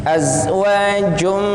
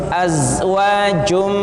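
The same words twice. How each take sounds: The two takes are said the same way.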